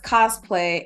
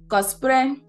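First: The word is said with English pronunciation. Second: The word is said with Japanese pronunciation. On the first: "in English, it's cosplay" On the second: "And in Japanese, it's cosplay"

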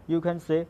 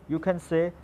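No difference in how they are said.

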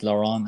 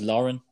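First: The name is said with a French accent. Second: The name is said in a plain everyday way. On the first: "Probably in French, it's Laurent" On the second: "the way I pronounce it is Lauren"

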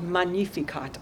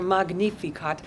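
First: The word is given a Latin pronunciation. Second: The word is given a German pronunciation. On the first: "depending on whether you're singing a Latin or a German version" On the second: "depending on whether you're singing a Latin or a German version"

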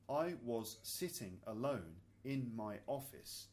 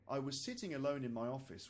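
First: It is spoken slowly with separated words. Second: It is spoken quickly at natural speed. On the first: "kind of more slowly so you can hear the individual words" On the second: "and then once again at natural speed"

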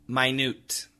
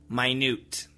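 Both takes have the same delivery.

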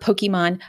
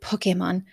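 First: It is said with English-style pronunciation. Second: It is said with Japanese-style pronunciation. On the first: The speaker calls it wrong. "not Pokemon" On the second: The speaker calls it right. "Or excuse me, Pokemon"

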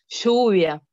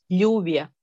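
First: It is said the Buenos Aires way. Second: It is said the speaker's own provincial way.

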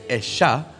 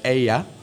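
First: The middle sound is a 'sh' sound. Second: The middle sound is a 'y' sound. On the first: This is how it is said in the wife's home region. "So they put double L with a sh" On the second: This is how most Spanish-speaking regions say it. "In every other part of Spanish-speaking country, they don't say Esha for her. They say Ella"

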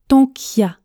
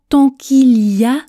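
First: The 'il' is dropped, giving a shortened phrase. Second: Every syllable of the phrase is pronounced.

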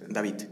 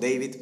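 First: The name is said with Spanish sounds. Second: The name is said with English sounds. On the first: This is how it is said where he was born. "es peruano, entonces David" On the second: This is how it is known internationally. "internacionalmente lo conocerán como David"

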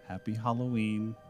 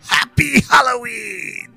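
First: It is said in a normal voice. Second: It is said in a Joker impression.

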